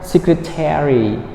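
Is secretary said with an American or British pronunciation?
American. Every syllable is said, ending like 'terry'. "if you are an American speaker"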